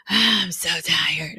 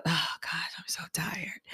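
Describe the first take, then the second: First: Slow, dragged-out weary voice; drained drawl. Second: Breathy whispered complaint, all air; tired whisper. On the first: Tired client dragging out her complaint. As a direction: stretch each word like she can barely talk. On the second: Tired salon client whispering her exhaustion. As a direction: whisper it like she's drained. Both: Retold or imitated.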